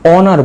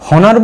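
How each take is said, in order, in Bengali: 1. শব্দটি কোনো h ধ্বনি দিয়ে শুরু হয় না। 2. শব্দটি h ধ্বনি দিয়ে শুরু হয়। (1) "এই এইচটার উচ্চারণ হবে না" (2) "হনার বলবো না অনার বলবো?"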